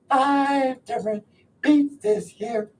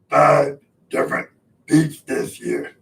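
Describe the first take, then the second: First: It is said in a cartoon-person voice. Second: It is said in a Cookie Monster voice.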